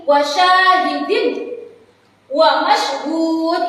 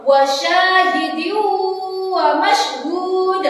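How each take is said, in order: First: "Wasyahidin" ends on a clear n, then a break before "wa mashhud"; wrong demo, sounding the n of "Wasyahidin" distinctly with no hum; clear unmerged reading. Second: Slow chanted "Wasyahidyu wa mashhud", humming into the "wa"; nasal merging (idgham). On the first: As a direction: recite "Wasyahidin, wa mashhud" as two separate pieces. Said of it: "Tidak boleh dibaca jelas seperti ini". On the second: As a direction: hold the merged hum from "Wasyahidyu" into "wa". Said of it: "saya kasih contoh". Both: Shown as a demonstration.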